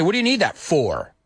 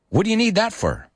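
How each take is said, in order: First: "for" said in full as "for", not reduced; careful full for. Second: "for" reduced to a quick "fer"; natural reduced for. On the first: Teacher showing the unnatural version to students, full "for". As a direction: give "for" its full vowel, the way he says nobody talks. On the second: Teacher modeling natural speech for Spanish learners, "for" reduced to "fur". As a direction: say "for" as an unstressed "fur" sound at the end. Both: Shown as a demonstration. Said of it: "I didn't say".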